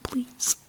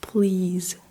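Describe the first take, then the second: First: The word ends with a voiceless s sound. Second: The word ends with a voiced z sound. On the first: "you say please" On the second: "instead of please"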